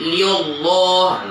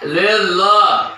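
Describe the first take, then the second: First: The L is said thick and heavy. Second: The L is said thin and light. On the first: The speaker calls it wrong. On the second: The speaker calls it right.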